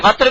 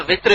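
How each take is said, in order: First: وتر pronounced "watr", first vowel a. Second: وتر pronounced "witr", first vowel i. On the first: Teacher contrasting two usable forms, وتر as "watr". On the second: Teacher contrasting two usable forms, وتر as "witr". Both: Shown as a demonstration. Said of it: "دونوں طرح استعمال ہوتا ہے".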